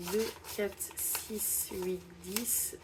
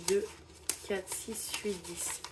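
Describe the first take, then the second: No difference in how they are said.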